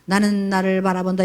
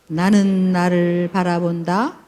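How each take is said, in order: First: It is read flatly, without expression. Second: It is read expressively, like poetry.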